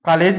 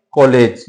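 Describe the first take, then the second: First: कॉलेज said as "kaalej", with a plain long आ; wrong way. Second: कॉलेज with the open rounded ऑ, between आ and औ; right way. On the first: Teacher showing students how not to say it. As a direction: say कॉलेज wrongly with a flat open आ sound. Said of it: "भी नहीं कहते हैं". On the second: Teacher giving students the correct pronunciation. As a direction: say कॉलेज correctly, as in English college. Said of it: "क्या कहते हैं?". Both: Shown as a demonstration.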